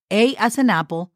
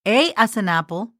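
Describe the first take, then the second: No difference in how they are said.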